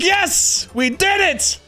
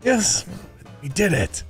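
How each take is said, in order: First: It is shouted loudly and excitedly. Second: It is said softly and lightheartedly.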